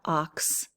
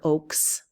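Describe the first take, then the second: First: It has a short o and a final ks. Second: It has a long o and a final ks. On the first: "It's not ox" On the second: "or oaks"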